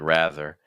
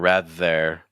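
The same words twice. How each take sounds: First: The second syllable is weak and reduced. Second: The second syllable is full and strong. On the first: The speaker calls it right. "versus like rather" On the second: The speaker calls it wrong. "I'm hearing rather"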